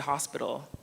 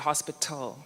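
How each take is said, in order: First: The middle t sounds like a soft d. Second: The middle t is a clear t sound. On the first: This is how North Americans say it. "we pronounce the T like it's a D" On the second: This is how a Ghanaian audience expects it. "I had to say hospital for the Ghanaian audience"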